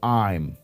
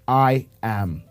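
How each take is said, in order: First: The two words are joined into one syllable. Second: The two words are said as separate words.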